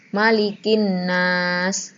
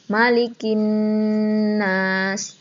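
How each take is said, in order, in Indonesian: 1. Bunyi n pendek, tanpa dengung yang ditahan. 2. Bunyi n dibaca panjang dengan dengung. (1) "itu salah ... tidak ada jedanya ... tidak ada dengungnya" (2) "Bagaimana cara membaca yang benar?"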